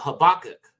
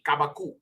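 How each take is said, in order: First: The name begins with an h sound. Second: The name begins with a k sound. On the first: This is the usual English form. The speaker calls it wrong. "In the English, they say" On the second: This is the original Hebrew form. The speaker calls it right. "but it would be kabakuk"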